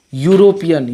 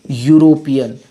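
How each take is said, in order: First: यूरोपियन again with the "yo" onset, falling at the end; pronunciation demo repeated. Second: यूरोपियन said as "yoo-ro-pi-yan", starting on a "yo" glide; pronunciation demo. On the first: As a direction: repeat यूरोपियन clearly with the "yo" sound. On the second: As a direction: model यूरोपियन starting with "yo", lower in pitch. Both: Shown as a demonstration. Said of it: "यो से इसका उच्चारण आ रहा है".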